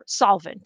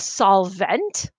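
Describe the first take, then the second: First: The second syllable is said softly, unstressed. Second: The second syllable is said hard and stressed. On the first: "is how you would say it" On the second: "I'm saying the, the vent part harder so that you can hear the difference"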